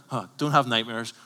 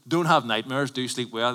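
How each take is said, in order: First: Mocking scoff, as if unconvinced; sarcastic. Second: Quoting Crime Watch. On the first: Preacher mocks the TV reassurance, scoffing. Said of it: "You're like". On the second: Retold or imitated. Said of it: "It's like Crime Watch says".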